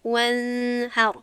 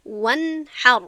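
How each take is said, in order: First: وانحر with the n drawn out as a nasal hum; hidden, held nun. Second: وانحر with a crisp sounded n before the h; louder وانحر, n fully pronounced and not held; clear nun. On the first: Teacher shows how not to say it, over-held n in وانحر. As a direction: slowly stretch the n of وانحر before the h. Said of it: "نمیگویم". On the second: Teacher models "I say" for students, izhar on وانحر. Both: Shown as a demonstration.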